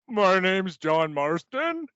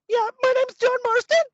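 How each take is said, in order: First: It is said more calmly. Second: It is said with more energy.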